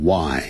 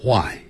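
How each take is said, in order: First: "why" starting on a plain w; American "why". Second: "why" with breathy h before w, hwy; British "why". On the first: Teacher models American English for students, "why" with silent h. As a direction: say "why" with no h puff. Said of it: "美式英语念成why". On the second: Teacher models British English for students, "why" as hwy. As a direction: start "why" on an h puff. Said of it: "英式英语念成". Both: Shown as a demonstration.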